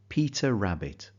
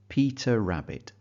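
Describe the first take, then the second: Both takes have the same delivery.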